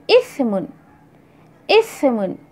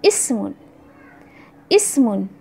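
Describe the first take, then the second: First: इस्मुन with a lisped th sound; Arabic tha in इस्मुन; tha ismun. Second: इस्मुन with a clear plain s; crisp s in इस्मुन; Arabic seen in इस्मुन; seen ismun. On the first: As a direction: put the tongue between the teeth for इस्मुन. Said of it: "सा से". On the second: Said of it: "अलिफ सीन मीम". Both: Shown as a demonstration.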